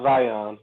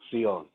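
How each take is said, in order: First: The word begins with a buzzing z sound. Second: The word begins with a hissing ts sound. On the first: The speaker calls it wrong. "It's not Zion" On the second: The speaker calls it right. "That's how you actually say it"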